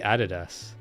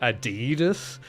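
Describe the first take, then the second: First: It is said the non-American way. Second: It is said the American way.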